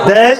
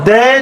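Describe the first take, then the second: No difference in how they are said.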